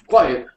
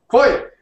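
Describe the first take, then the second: First: It is said at normal loudness. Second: It is shouted loudly as a command.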